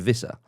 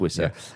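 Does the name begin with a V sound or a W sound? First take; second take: V sound; W sound. First: The name begins with a V sound. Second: The name begins with a W sound. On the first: The speaker calls it wrong. "often tempted to say Vissa" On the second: The speaker calls it right. "but it is Wissa"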